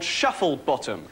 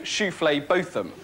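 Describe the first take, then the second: First: The name begins with the plain word 'shuffle'. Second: The name begins with a fancy 'shoo-flay' sound. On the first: This is how the name is spelt. "it's definitely spelt Shufflebottom" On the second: The owners avoid a name that invites mockery. "they will always insist on their name actually being Shouflé Botham"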